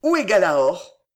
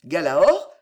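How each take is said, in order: First: Loud, urgent and pressing; loud eager question from the old soldier rushing into the kitchen. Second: Loud, baffled echo of the name; the innkeeper echoing the name in loud astonishment; stupefied echo. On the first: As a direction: demand the horse at once, breathless with haste. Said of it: "d'une voix empressée". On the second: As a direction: repeat it back, dumbfounded. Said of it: "fit Landry stupéfait". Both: Acted.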